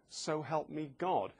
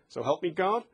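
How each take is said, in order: First: The voice falls at the end. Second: The voice rises at the end, like a question.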